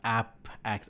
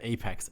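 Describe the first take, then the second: First: The first syllable sounds like 'app'. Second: The first syllable sounds like 'ape'. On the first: The speaker calls it wrong. "It's not App X as an application express" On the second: The speaker calls it right. "Apex as in at the apex of the mountain"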